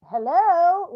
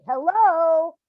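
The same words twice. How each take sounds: First: High, loud call for his attention; a mother calling to her son who runs by. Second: High, loud second call, a little more insistent; the mother calls out a second time; calling out again. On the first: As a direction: shout hello to catch him as he runs past. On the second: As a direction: call hello once more, louder in intent. Calling out to son running by. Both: Retold or imitated.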